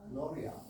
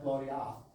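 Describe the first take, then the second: First: The last vowel is a short uh sound. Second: The last vowel is an open ah sound. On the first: The speaker calls it right. "I think it's uh" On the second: The speaker calls it wrong.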